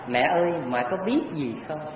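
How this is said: It is said gently and lovingly.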